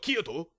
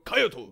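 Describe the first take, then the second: First: Kyoto is said with an English-style pronunciation. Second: Kyoto is said with a Japanese-style pronunciation. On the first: The speaker calls it wrong. "Japanese people don't go Kyoto" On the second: The speaker calls it right. "They go Kyoto"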